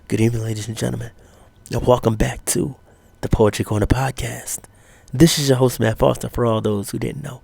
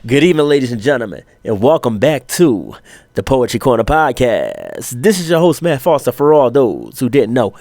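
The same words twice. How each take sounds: First: It is said in an unsure, hesitant way. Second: It is said in a confident, assured way.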